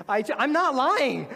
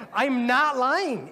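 First: Higher, louder, slowed, weight on not; emphatic insistence. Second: Very slow, higher, loud, stretching lying; drawn-out insistence. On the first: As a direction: plead to be believed, not lying. Insists on honest confession. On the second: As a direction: repeat it slower, begging belief. Repeats the insistence even slower. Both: Real, not acted.

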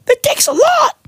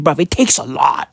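First: Much higher, wailing mock sob; mock crying. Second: Said in the usual way. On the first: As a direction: whimper "It takes a lot" in a hammed-up cry. Comic mock sob repeat.

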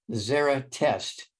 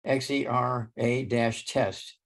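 First: Said in the usual way. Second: X E R A dash test spelled slowly letter by letter. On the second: Shown as a demonstration.

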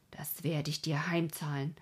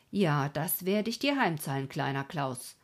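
First: Low-key vow of revenge; restrained threat. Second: Firmer threat. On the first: Klaus vows payback on the road, restrained threat. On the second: Klaus promises little Klaus payback, emphatic threat. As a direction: press the threat home, dropping on the name. Repeats the vow more forcefully. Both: A narrator's reading.

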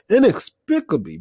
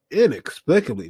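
First: Inexplicably pitched much higher, stretched in disbelief; incredulous emphasis. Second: Said in the usual way. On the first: Real, not acted. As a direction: lean hard on inexplicably in disbelief. Repeats the word, much higher.

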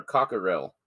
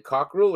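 First: "Cockerell" in three syllables, COCK-er-ell; "Cockerell" with the middle vowel sounded; three-syllable pronunciation. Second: "Cockerell" squeezed into two syllables, COCK-rul; "Cockerell" with no middle vowel; two-syllable pronunciation. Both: Shown as a demonstration. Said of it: "is it Cockerell or Cockerell".

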